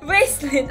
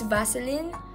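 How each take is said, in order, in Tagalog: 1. Maarte ang pagbigkas sa salita, parang pakitang-tao. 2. Simple at karaniwan ang pagbigkas sa salita. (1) "ang fake" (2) "Okay, it's Vaseline"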